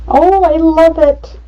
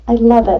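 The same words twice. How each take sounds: First: Delighted gush. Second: Said in the usual way. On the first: Real, not acted. Delighted with the photo layout.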